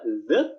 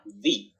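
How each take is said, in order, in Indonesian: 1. Vokalnya bunyi 'uh' yang pendek. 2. Vokalnya bunyi 'ee' yang panjang. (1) "bisa e" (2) "bisa i"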